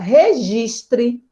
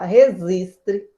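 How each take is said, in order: First: The middle consonant is not a z sound. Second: The middle consonant is pronounced as a z. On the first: The speaker calls it right. "a palavra registre" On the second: The speaker calls it wrong. "algumas pessoas pronunciam resistre. E parece que fica até mais suave"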